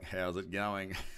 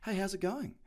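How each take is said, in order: First: It is asked in a mocking, knowing tone. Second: It is asked in a friendly, genuine tone.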